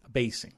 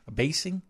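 First: "Abasing" lower and softer, falling tune; confirming fall. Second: "Abasing" with a rising, unsure tune; questioning rise. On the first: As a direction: settle on "Abasing" as a statement. Confirms the word to himself. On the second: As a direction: query the word "Abasing". Checks odd word, then confirms. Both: Real, not acted.

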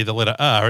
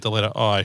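First: R said as an open "ah" with no r sound; non-rhotic Australian R. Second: I said as a clear "eye" glide; plainly pronounced I, like "eye"; letter I. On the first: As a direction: drop the r, leaving R as "ah". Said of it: "it sounds like in American, with an American accent, the letter I". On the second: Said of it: "with an American accent, the letter I". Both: Shown as a demonstration.

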